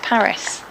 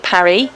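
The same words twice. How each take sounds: First: The name is said with English pronunciation. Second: The name is said with French pronunciation. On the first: "Why do we rename it Paris?" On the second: "The French call it Paris"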